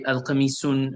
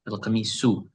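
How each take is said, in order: First: The word ends with an added 'n' sound. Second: The word ends on a plain 'u' vowel. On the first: The speaker calls it wrong. "Sometimes we say al qamisun, we say the un" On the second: The speaker calls it right. "it's only one u sound"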